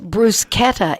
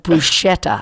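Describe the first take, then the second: First: It is said with an Italian pronunciation. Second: It is said with an English pronunciation. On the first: This is the proper way taught to staff. The speaker calls it right. "bruschetta instead of" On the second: This is the common local way. The speaker calls it wrong. "instead of bruschetta"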